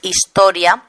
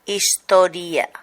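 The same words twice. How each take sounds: First: Historia with "ria" run together as one syllable; diphthong ending. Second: Historia slowly, with i and a as separate syllables; Catalan-style historia, breaking the final ia in two; hiatus. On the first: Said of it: "En lugar de decir historia". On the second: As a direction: stretch historia into is-to-ri-a. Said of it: "se pronuncian como hiatos". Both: Shown as a demonstration.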